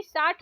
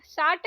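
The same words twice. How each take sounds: First: साठ ending in aspirated th; breath puff closing साठ; correct pronunciation. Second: साठ ending in plain t; no puff closing साठ; wrong pronunciation. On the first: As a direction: say साठ as "saath", retroflex. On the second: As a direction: say साठ as "saat". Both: Shown as a demonstration. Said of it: "साठ नहीं".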